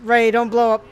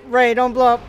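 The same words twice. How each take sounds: The two takes are said the same way.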